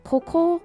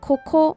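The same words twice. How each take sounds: First: Said with the pitch accent of the word 'here'. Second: The same.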